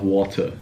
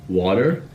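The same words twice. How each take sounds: First: "water" with no r at the end; r-dropped British-style "water"; non-American "water". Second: "water" with an r-coloured American ending; American-style r on "water". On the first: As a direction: say "water" with an open, r-less ending. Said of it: "instead of water". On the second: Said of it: "the American style". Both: Shown as a demonstration.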